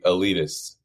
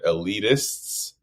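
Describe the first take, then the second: First: The T is dropped, leaving only the S. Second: The T before the final S is pronounced.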